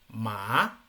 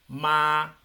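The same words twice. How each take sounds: First: The pitch rises from start to end. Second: The pitch stays level throughout the word. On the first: It means sesame seed. "es un sonido ascendente... Sonaría algo así" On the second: It means mother. "No sube, no baja... empieza en un tono y termina en el mismo tono"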